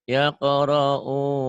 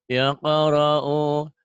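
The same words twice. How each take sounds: No difference in how they are said.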